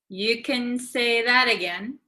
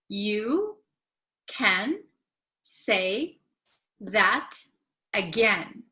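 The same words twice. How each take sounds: First: The phrase is said quickly with a short can. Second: The phrase is said slowly and carefully.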